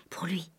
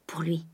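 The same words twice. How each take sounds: First: A bare whisper, softer still. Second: Said softly under the breath; soft murmur. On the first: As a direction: breathe it almost silently. (chuchoté) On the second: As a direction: murmur it to herself. (murmuré doucement) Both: A narrator's reading. Whispered repetition.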